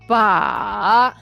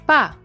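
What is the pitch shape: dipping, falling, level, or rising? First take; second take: dipping; falling. First: The pitch dips low, then rises high. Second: The pitch falls from high to low. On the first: It means handle. "The third tone, low to the bottom, then up to high" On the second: It means dead. "The fourth tone, high to the bottom"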